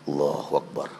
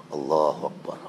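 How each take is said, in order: The two takes are said the same way.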